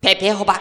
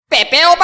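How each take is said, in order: First: It is said calmly in an Amuro voice. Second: It is shouted loudly.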